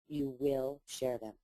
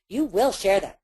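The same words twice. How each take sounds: First: It is said in a warm, caring tone. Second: It is said in a bossy, commanding tone. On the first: The speaker cares about the listener. The speaker calls it right. "I don't say it bossy. I say it caring" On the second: The speaker is ordering the listener. The speaker calls it wrong. "I don't say"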